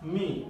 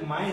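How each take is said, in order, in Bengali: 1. স্বরধ্বনিটি 'ee'-এর মতো শোনায়। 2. স্বরধ্বনিটি 'ai'-এর মতো শোনায়। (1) "এটা হবে হচ্ছে মি" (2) "মাই হবে না"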